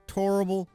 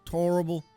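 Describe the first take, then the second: First: The first vowel is a rounded 'or' sound. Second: The same.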